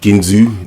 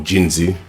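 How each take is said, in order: First: The name begins with a hard g sound. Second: The name begins with a j sound. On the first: The speaker calls it wrong. "not Ginzu" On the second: The speaker calls it right. "It's probably Jinzu to be honest"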